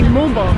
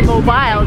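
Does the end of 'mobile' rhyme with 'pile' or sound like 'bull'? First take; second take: bull; pile. First: The word ends with a short weak 'bul' sound, like 'bull'. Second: The word ends with a long 'bile' sound, like 'pile'. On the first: This is how Americans say it. The speaker calls it right. "they say mobile" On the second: This is how Americans do not say it. The speaker calls it wrong. "Americans don't say mobile"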